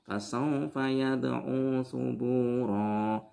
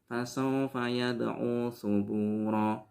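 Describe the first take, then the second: First: The final vowel of the last word is long. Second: The final vowel of the last word is short. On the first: The speaker calls it right. "Di situ ro-nya harus dibaca satu alif" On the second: The speaker calls it wrong. "Tidak boleh dibaca cuma"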